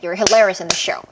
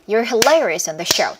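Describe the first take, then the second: First: It is spoken at the fastest pace. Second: It is spoken faster still. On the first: "더 빠르게" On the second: "더 빠르게"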